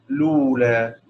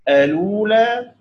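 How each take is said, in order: First: It starts directly with l and has no initial vowel. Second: It starts with a, then lu, with no glottal stop. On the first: "بحذف همزة الوصل لولا" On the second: "بإثبات همزة الوصل الأولى"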